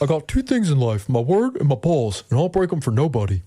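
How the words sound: It is said in an impression of D's accent.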